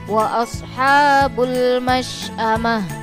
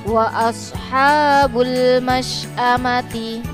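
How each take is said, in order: First: The last word ends with an h sound. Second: The last word ends with a full t-syllable. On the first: The reading stops at this word. "Ketika wakof atau dibaca berhenti menjadi" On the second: The reading continues without stopping. "ada tak marbuto berharokat kasroh"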